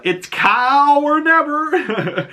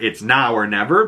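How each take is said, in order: First: Cow drawn way out, high-pitched; hammed-up long Cow; stress on Cow. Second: Said in the usual way. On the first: Shown as a demonstration. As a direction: stretch Cow slowly and high, with a laugh. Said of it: "or It's Now or Never". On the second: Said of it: "but it's Cow or Never".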